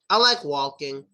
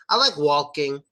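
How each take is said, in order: First: The L in walking is pronounced with the tongue. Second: The L in walking is pronounced with the tongue.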